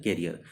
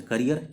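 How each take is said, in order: First: कैरियर said kae-ri-yar, open first vowel. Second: करियर said ka-ri-yar, short first a. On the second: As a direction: start करियर with a short kuh. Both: Shown as a demonstration. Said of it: "pronunciation में थोड़ा difference है".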